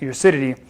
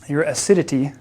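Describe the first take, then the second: First: The phrase is said quickly. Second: The phrase is said slowly. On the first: The speaker calls it wrong. "don't say that too fast or too slow, it might sound funny" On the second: The speaker calls it right. "It's better pronunciation. better to say it slower"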